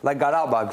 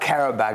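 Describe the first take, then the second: First: The name begins with a voiced G sound. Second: The name begins with a voiceless K sound. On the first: The speaker calls it right. "I looked up how to pronounce Garabag specifically" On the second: The speaker calls it wrong. "It's not Karabag"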